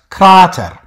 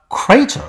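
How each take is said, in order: First: The first vowel is a long 'ah' sound. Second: The first vowel is an 'ay' sound. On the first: This is the older pronunciation. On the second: This is the modern pronunciation.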